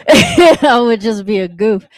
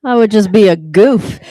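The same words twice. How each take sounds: First: Laughing through the line. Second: Said in the usual way. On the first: Shown as a demonstration. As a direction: say it while chuckling, slowly.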